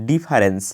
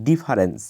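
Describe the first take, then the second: Both takes have the same delivery.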